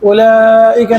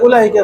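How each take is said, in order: First: The middle vowel is drawn out long. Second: The middle vowel is cut short. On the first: The speaker calls it right. "উলাইকা না বলে" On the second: The speaker calls it wrong. "উলাইকা বলেছে ... উলাইকা বিলা মাদ্দিন"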